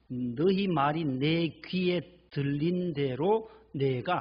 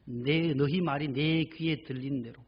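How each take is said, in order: First: 너희 말이 내 귀에 들린 대로 said very slowly, word by word, 너희 leaned on with a rise; slow emphatic scripture quote. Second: 너희 말이 내 귀에 들린 대로 said slowly, 너희 leaned on; slow repeated verse. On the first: Preacher quoting God's word to the congregation, slow and weighty. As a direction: drag out 너희 말이 내 귀에 들린 대로 and press on 너희. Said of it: "민수기 십사 장 이십팔 절에 보면". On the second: Preacher repeating the verse to close the point, slow and deliberate. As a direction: draw out 너희 and let the verse sink in. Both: Shown as a demonstration.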